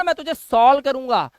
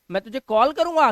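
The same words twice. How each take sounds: First: सॉल्व said with an s sound, as a mistaken reading of call; mock the wrong reading: सॉल्व with s; deliberately wrong: सॉल्व, not कॉल; wrong on purpose. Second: कॉल said with a hard k sound, like call; the right way: कॉल with k, not s; क्या बोलते हो: कॉल, k sound at the start; correct pronunciation. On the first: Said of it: "इसे बोलो ना". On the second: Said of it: "क्यों बोलते हो कॉल". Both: Shown as a demonstration.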